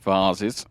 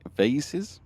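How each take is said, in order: First: The word is said in a British accent. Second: The word is said in an American accent. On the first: "as I call them" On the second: "you guys call them va vases. Is that my American pronunciation?"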